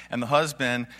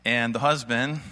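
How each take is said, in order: Both takes have the same delivery.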